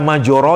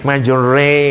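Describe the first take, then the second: First: The vowel after r is an open a. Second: The vowel after r leans toward e. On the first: The voyage is smooth. The speaker calls it wrong. "tidak dibaca majoro yang menggambarkan smooth" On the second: The voyage is rocking and uncomfortable. The speaker calls it right. "Ngomongnya kayak slanting"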